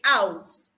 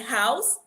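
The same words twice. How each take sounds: First: The word begins with a vowel sound. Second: The word begins with an h sound. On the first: "where there is a H, they take out the H" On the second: "In words like house"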